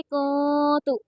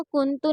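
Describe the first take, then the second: First: "कूतु" with a long nasal hum in place of the N; "कूतु" recited with the nun concealed and held; hidden nun. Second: "कुंतु" short, with a clear N before तु; "कुंतु" with no held nasal; wrong reading. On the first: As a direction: stretch the nasal "कू" before a short तु. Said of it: "नून साकिन की आवाज़ को छुपाई जाएगी". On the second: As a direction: say "कुंतु" quickly, the nun fully sounded. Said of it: "नहीं पढ़ेंगे". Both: Shown as a demonstration.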